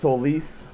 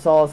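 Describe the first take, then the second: First: It is said as the Latin solis. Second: It is said like the English word solace. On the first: This is the original Latin pronunciation. "solis is the Latin pronunciation" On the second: This is the speaker's chosen pronunciation. "I pronounce it solace"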